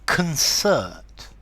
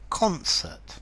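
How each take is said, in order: First: The stress is on the second syllable. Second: The stress is on the first syllable. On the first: It is used as a verb. "to concert" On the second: It is used as a noun. "but a concert"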